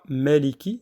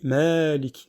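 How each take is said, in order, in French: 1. La voyelle après le m est brève. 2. La voyelle après le m est allongée. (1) "On ne dit pas Maliki directement, on passe pas du, du mime à- au lem" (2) "on va étendre un petit peu le son de- du, du mime"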